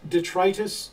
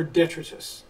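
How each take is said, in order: First: "detritus" as dih-TRY-tus; long-i pronunciation. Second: "detritus" as DET-rih-tus; first-syllable stress. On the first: Asking about UK pronunciation, "detritus" as dih-TRY-tus. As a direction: stress a long "try" mid-word in "detritus". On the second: Offering the other option for UK listeners, "detritus" as DET-rih-tus. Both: Shown as a demonstration. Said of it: "does the U K pronounce it".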